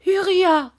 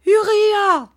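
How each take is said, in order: First: High, loud call of a name; mother's cry. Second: Even higher and louder, the cry held long; louder desperate cry. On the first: Mother crying out to her son, high and loud. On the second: Mother calling her son again, higher and louder. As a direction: call him again, more desperate. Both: A narrator's reading. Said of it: "cria sa mère".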